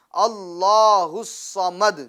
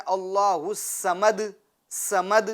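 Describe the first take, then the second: First: الصمد with a full, heavy ص, slow; heavy saad. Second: الصمد with a thin س sound instead of a heavy ص; wrong thin saad. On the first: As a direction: say الصمد with a thick ص. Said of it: "اس کو پور پڑھیں گے، موٹا پڑھیں گے". (صاد پور، موٹا پڑھیں) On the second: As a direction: say سمد with a light, thin س. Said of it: "اب اگر کوئی یوں پڑھتا ہے". (غلط، باریک سین والی آواز) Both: Shown as a demonstration.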